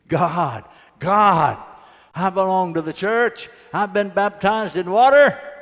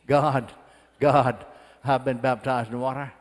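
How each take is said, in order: First: It is screamed at full volume. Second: It is said at a normal volume.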